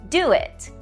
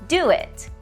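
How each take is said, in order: No difference in how they are said.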